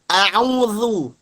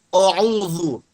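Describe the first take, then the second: First: The first vowel is a thin 'a'. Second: The first vowel is a thick, 'o'-like sound. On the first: The speaker calls it right. "tapi a, tipis a" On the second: The speaker calls it wrong. "jangan a'udzu, jangan o"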